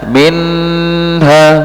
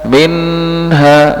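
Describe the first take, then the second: First: The n sound is held too long. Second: The same.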